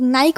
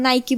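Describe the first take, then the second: First: It is said with an Indian pronunciation. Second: It is said with an American pronunciation.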